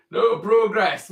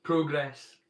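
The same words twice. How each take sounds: First: Loud mock protest cry of no progress; mock protest shout. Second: Said in the usual way. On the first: To the chat, playing a Luddite, a mock protest shout.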